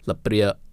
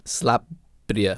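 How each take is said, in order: First: The word starts without an S sound. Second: The word starts with an S sound. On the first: This form counts as slang. The speaker calls it wrong. "I've been saying lapia or lapria the whole entire time, and that's actually considered slang" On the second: This is the proper form. The speaker calls it right. "it's actually slapria with the more like an S sound"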